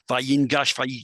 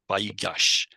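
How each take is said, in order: First: An n sound is heard before the g. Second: No n sound is heard before the g. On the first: This is the underlying form before the nun assimilates. "normally it would have been Vayingash" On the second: This is the actual form, with the nun assimilated. "if you say it fast, it almost naturally gets swallowed up in the gimel"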